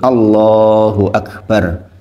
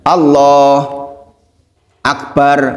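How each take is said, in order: First: The two words run together without a break. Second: There is a break between the two words. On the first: The speaker calls it right. "harus beruntun, Allahu Akbar, jangan dijeda" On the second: The speaker calls it wrong. "tidak boleh ada jeda, maksudnya Allah Akbar, nah itu nggak boleh"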